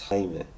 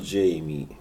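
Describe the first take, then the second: First: The name is said with Spanish sounds. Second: The name is said like English Jamie. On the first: The speaker calls it right. "that's how his name is pronounced" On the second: The speaker calls it wrong. "It's not Jamie Munguia"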